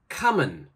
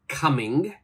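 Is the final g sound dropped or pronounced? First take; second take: dropped; pronounced. First: The final g sound is left off. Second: The final g sound is clearly pronounced. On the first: The speaker calls it right. "we say" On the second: The speaker calls it wrong. "We don't say"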